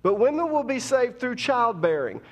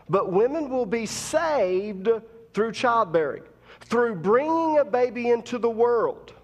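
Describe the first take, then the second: First: Repeated louder and higher with force; preaching. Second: Building preacher cadence, rising; preaching. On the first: Shown as a demonstration. Preacher repeating the verse to congregation, more forceful. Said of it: "Let's say that again". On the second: Acted. Preacher to women in congregation, building preaching cadence. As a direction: lift the verse like a preacher.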